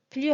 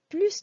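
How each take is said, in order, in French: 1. Le S final est muet. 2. Le S final est prononcé. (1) "Tout à l'heure, on disait plus rapide" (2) "au niveau de la quantité, on prononce le S"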